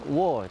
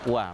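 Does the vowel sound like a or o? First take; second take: o; a. First: The vowel sounds like o. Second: The vowel sounds like a. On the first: The speaker calls it wrong. "kadang-kadang kita dengar bacaannya itu seperti uh, wo" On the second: The speaker calls it right. "yang sebenarnya adalah wa, bukan wo"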